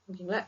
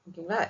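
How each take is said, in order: The two takes are said the same way.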